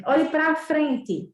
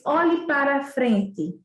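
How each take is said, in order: First: Slow demo with "pra" clipped short; slow example of relaxed speech; informal everyday form. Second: Slow demo sounding out "para" in full; slow example of formal speech. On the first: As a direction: say "Olhe pra frente" casually, "pra" reduced. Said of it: "Se eu disser assim". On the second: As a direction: say "Olhe para frente" with careful full "para". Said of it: "A gente não diz". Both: Shown as a demonstration.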